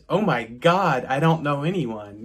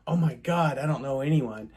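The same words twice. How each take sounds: First: It sounds happy and excited. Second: It sounds worried and anxious.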